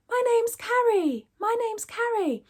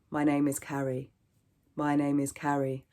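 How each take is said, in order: First: Very high, sustained head register. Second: Low, level chest register. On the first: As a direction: pitch it way up like a cartoon mouse. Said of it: "So play around with it". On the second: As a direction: bring it right down into the chest. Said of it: "bring your pitch lower". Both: Shown as a demonstration.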